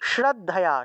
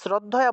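First: The word begins with an 'sh' sound. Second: The word begins with a plain 's' sound. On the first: The speaker calls it right. "এটা হবে শ্র" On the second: The speaker calls it wrong. "আমরা তো বাংলায় শ্রদ্ধায়া বলে ফেলি, এটা স্র হবে না"

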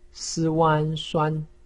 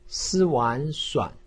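First: The pitch stays high and level. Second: The pitch dips low, then rises. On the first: "一声" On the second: "三声"

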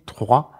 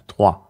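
First: The R is rolled as a trill. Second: The R is short with no trill. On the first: This is the formal, old-fashioned standard. "hat tatsächlich noch dieses R, dieses altertümliche" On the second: This is the normal everyday form. "ein kürzeres R, also kein Trill mehr"

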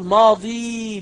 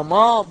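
First: The word ends with a long 'ee' vowel. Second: The word ends without a long 'ee' vowel. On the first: The speaker calls it wrong. "ولا تقل ماضي بالياء" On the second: The speaker calls it right. "هي ماض"

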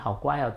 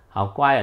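First: It is said in a warm, gentle tone. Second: It is said in a harsh, frightening tone. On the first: The pet feels praised and happy. "你的猫狗一定很开心" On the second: The pet feels scared despite the words. "他一定觉得很可怕嘛"

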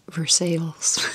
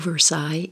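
First: It is pronounced the local Kentucky way. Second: It is pronounced the French way. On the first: It names the town in Kentucky. "but it's pronounced Versailles" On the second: It names the place in France. "Versailles in France"

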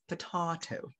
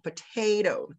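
First: It is said with a British accent. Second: It is said with an American accent. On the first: "but for them it's potato" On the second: "for us Filipinos, we follow the Americans, we typically say potato"

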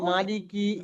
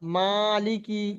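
First: The long vowel is not drawn out. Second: The long vowel is clearly drawn out. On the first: The speaker calls it wrong. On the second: The speaker calls it right.

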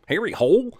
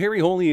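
First: The surname sounds like the English word hole. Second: The surname ends with an extra ee vowel. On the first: The speaker calls it wrong. "movie decides to make Harry's name sound more fitting for porn" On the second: The speaker calls it right. "in Norway, Harry's last name would be pronounced as Holey"

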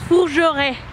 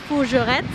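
First: The final consonant sounds are left silent. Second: The final consonant sounds are pronounced aloud. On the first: The speaker calls it right. "no se pronuncia, así que es Fougeray" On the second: The speaker calls it wrong. "Como tiene una T y una Z, yo hago Fougerettes y pues está mal"

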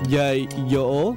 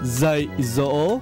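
First: It is said with a Southern Vietnamese accent. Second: It is said with a Northern Vietnamese accent.

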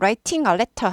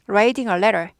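First: The t sounds are crisp and fully released. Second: The t sounds are softened to a quick flap. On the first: The speaker calls it wrong. "writing a letter 하지 않고" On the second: The speaker calls it right. "약화되죠"

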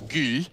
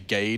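First: The name is said with a Danish pronunciation. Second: The name is said with an English pronunciation. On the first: "which would be Gil" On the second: "we don't say Gade like a Danish person"

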